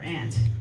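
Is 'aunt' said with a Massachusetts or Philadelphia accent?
Philadelphia. Aunt is said the Philadelphia way, like 'ant'.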